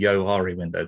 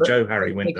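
First: The first part is said as one blended word. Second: The first part is said as two separate names. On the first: The speaker calls it wrong. "people mistakenly call it the Johari window" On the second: The speaker calls it right. "it's the Joe Harry window"

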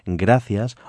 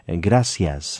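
First: The middle consonant is a TH sound. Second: The middle consonant is an S sound. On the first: "That C is actually a TH sound" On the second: "pronouncing both with the S sound"

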